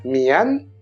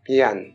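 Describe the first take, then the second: First: The initial M is soft, lips parting gently. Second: The initial M is abrupt, leaning toward a B. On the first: "on a envie de dire mian" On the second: "mais souvent on entend mian"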